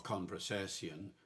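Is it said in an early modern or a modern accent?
early modern. It is said in early modern English pronunciation.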